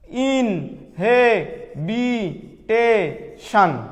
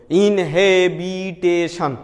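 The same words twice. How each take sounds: First: ইনহেবিটেশন in five drawn-out pieces with gaps; broken into syllables. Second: ইনহেবিটেশন slow but linked, without long gaps; joined-up syllables. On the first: Teacher repeating a long word for students, ইনহেবিটেশন split syllable by syllable. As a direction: say ইনহেবিটেশন very slowly, one isolated syllable at a time. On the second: Teacher naming the polysyllable for students, ইনহেবিটেশন slowly joined up. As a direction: run the syllables of ইনহেবিটেশন together, still measured. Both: Shown as a demonstration. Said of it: "ভেঙে ভেঙে উচ্চারণের সুবিধার জন্য".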